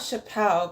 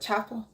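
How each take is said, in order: First: The name is said like 'Chappelle'. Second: The name is said like the word 'chapel'. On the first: The speaker calls it wrong. "It's not Chappelle" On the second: The speaker calls it right. "but Chapel"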